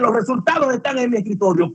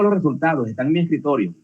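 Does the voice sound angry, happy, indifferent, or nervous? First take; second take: angry; indifferent. First: The voice sounds annoyed and angry. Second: The voice sounds calm and indifferent. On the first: The listener is late in coming to look. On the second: There is no hurry to see them. "Tranquilo, pero también con indiferencia"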